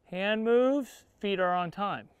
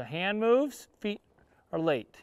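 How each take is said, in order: First: "Hand moves, feet are on time" said in one even beat; on-time timing demo. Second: "feet" said after a gap, "are late" dragging behind; late timing demo. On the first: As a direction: feet land right with the hand. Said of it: "timing of his feet to my hands". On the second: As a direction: feet lag after the hand. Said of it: "a little late with the timing". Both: Shown as a demonstration.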